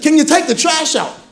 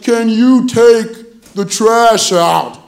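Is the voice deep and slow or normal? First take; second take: normal; deep slow. First: It is said in a normal voice at normal speed. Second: It is said in a deep, slow-motion voice.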